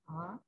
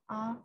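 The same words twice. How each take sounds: First: The syllable is said in the second tone. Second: The syllable is said in the first tone. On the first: "second tone" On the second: "first tone"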